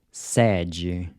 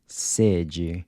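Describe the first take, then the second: First: Sede with an open E, like the E in air; Sede, mouth wide on the E. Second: Sede with a closed E, like a short "say". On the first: Teacher models Portuguese Sede with an open E. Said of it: "open E's in purple are pronounced". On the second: Teacher models Portuguese sede with a closed E. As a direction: say sede with a tight, clipped E. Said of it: "closed E". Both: Shown as a demonstration.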